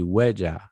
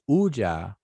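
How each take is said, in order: First: The word begins with a W sound. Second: The word begins with a vowel sound. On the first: The speaker calls it right. "but it's actually Weja. You know, that W is on the front" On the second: The speaker calls it wrong. "People say Uja"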